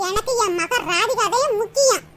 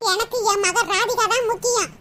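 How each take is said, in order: First: Drawn out, teasing, with a laugh; slow taunting repeat. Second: Said in the usual way. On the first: Acted. Mother taunting daughter-in-law, slow and teasing. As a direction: rub it in slowly with a chuckle. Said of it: "repeated line". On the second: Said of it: "repeats line slowly".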